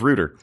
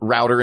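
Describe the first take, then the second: First: It is pronounced the British way. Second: It is pronounced the American way. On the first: This is how they said it before living in America. "instead of router" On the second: They picked up the American word after living in America. "they just said router"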